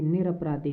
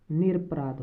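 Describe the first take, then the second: First: निरपराधी with an added final long 'ee'; wrong-form demo. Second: निरपराध ending on the consonant 'dh'; correct-form demo. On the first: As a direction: end निरपराधी on '-dhee'. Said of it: "निरपराधी नहीं होता". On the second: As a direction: stop निरपराध at '-aadh', no final vowel. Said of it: "निरपराध होता है". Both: Shown as a demonstration.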